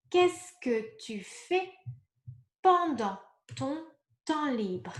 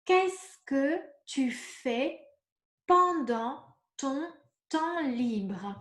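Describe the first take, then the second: First: Said in the usual way. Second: Qu'est-ce que tu fais pendant ton temps libre asked very slowly, each word apart; slow model question. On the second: Shown as a demonstration. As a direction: ask the model question slowly so learners catch every word. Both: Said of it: "if I ask you".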